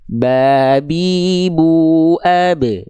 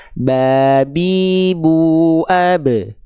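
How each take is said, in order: Both takes have the same delivery.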